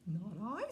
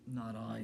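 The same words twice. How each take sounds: First: Higher-voiced cat refusing; storybook cat. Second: Low-voiced pig refusing; storybook pig. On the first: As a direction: answer as a cat, pitched up. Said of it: "said the cat". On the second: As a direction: answer as a pig, pitched down. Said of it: "said the pig". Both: A narrator's reading.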